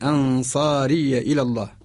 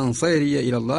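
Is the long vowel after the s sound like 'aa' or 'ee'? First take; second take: aa; ee. First: The long vowel after s is an open 'aa'. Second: The long vowel after s tilts toward 'ee'. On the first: The speaker calls it right. "وإنما من أنصاري إلى الله" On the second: The speaker calls it wrong. "أنصيري يعني خطأ"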